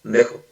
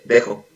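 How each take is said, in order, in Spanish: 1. Solo se dicen las últimas dos sílabas, rápido. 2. Solo se dicen las últimas dos sílabas, rápido.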